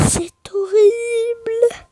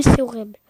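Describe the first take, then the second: First: Geignard, aigu et très lent; pleurnicherie exagérée. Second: Said in the usual way. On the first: Pretend. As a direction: plainte théâtrale, voix qui pleure. (faux sanglot aigu et traînant)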